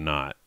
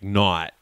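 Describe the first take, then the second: First: Said in the usual way. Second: "not" with a broad, open Massachusetts O. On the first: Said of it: "instead of not". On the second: Shown as a demonstration. Guest coaching the accent, "not" with Massachusetts O. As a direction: open the O in "not" wide, toward "naht". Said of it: "just the O's".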